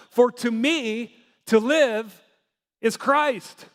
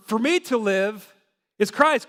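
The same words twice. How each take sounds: First: Slow, weighty reading of For to me to live is Christ; slow scripture quote. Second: Said in the usual way. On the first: Retold or imitated. Pastor quoting Paul to the congregation, slow and weighty. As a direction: lean into each word of to live and Christ, slowly. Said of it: "he was able to say in Philippians". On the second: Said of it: "For, for".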